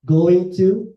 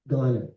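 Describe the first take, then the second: First: It is said as two full words. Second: It is said as one reduced word.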